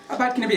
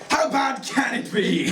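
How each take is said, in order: First: It is said in a relaxed, casual tone. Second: It is said in a daring, challenging tone. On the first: The speaker feels mildly positive about it. "it wasn't like" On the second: The speaker dares anyone to prove it bad. "sounded more like a challenge"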